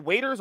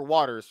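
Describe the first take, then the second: First: Waiters said with a long A, as in "wait"; questioned pronunciation. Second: Waters said with an AW vowel, like water; alternative pronunciation. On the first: Unsure of a TV host's name, trying Waiters with a long A. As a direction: say Waiters like people who wait tables. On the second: Unsure of a TV host's name, trying Waters with an AW sound. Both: Shown as a demonstration. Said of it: "Is it Waiters or Waters?".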